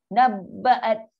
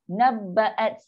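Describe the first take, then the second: No difference in how they are said.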